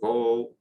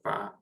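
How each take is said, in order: First: The vowel is an o sound. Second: The vowel is an open a sound. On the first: "or vo" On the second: "or va"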